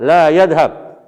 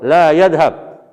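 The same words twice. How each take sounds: First: The vowel in 'la' is long. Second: The same.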